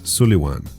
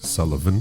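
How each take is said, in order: First: It is said in the non-anglicized way. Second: It is said in the anglicized way. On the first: The speaker calls it right. "the proper pronunciation of that name is Sullivan" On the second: The speaker calls it wrong. "not Sullivan. Sullivan is the anglicized version"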